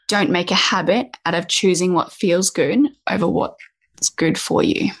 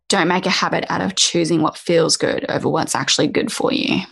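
First: It is said more slowly. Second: It is said at a normal pace.

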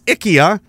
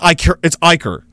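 First: The word ends without an R sound. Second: The word ends with an added R sound. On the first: The speaker calls it right. "Apparently, it's IKEA" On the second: The speaker calls it wrong. "I'm adding an R where there isn't one for no reason"

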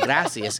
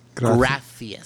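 First: The c is said with an s sound. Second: The c is said with a th sound. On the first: "it's not gracias" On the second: "it's gracias"

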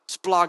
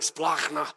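First: It is said in a plain, neutral way. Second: It sounds angry and sick to the stomach.

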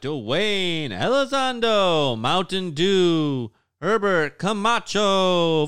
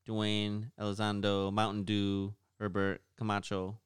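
First: It is said in a put-on announcer voice. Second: It is said in a plain speaking voice.

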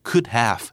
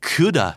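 First: Have is said as a separate full word. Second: Have shrinks to a short 'uh' sound. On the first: "ร่างเต็ม" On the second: "ลดรูปมาจาก"

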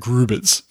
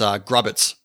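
First: The name is said with German sounds. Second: The name is said with English sounds. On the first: "this is German, so it's got the Grubitz" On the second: "I just thought it's Grubitz"

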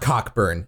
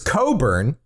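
First: The name is said with a 'k' sound. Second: The name is said without a 'k' sound. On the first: The speaker calls it wrong. "it's not Cockburn" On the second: The speaker calls it right. "That's how that name is pronounced"

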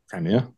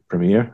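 First: It is said with a British pronunciation. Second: It is said with an American pronunciation.

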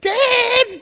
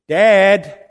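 First: The call sounds agitated, at a very high pitch. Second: The call sounds fairly calm, at normal pitch.

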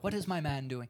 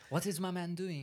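First: It is said without a French accent. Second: It is said in a French accent.

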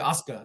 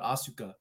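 First: The vowel after the first syllable is dropped. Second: The vowel after the first syllable is fully voiced. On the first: The speaker calls it right. "you don't pronounce the second vowel in Japanese in words" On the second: The speaker calls it wrong. "not Asuka"

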